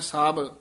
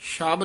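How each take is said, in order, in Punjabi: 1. ਸ਼ਬਦ ਦੀ ਸ਼ੁਰੂਆਤ ਨਰਮ s ਆਵਾਜ਼ ਨਾਲ ਹੁੰਦੀ ਹੈ। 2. ਸ਼ਬਦ ਦੀ ਸ਼ੁਰੂਆਤ sh ਆਵਾਜ਼ ਨਾਲ ਹੁੰਦੀ ਹੈ। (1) "ਸਾਬ ਹੀ ਬੋਲਣਾ, ਪੋਲਾ ਬੋਲਣਾ ਹੈ" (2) "ਸ਼ਬ ਨਹੀਂ ਕਹਿਣਾ"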